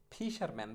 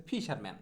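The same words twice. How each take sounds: The two takes are said the same way.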